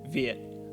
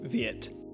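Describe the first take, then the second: First: The final T is stopped with no audible release. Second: The final T is released with an audible burst. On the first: The speaker calls it right. "we want to pronounce it Viet" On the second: The speaker calls it wrong. "not something like Viet"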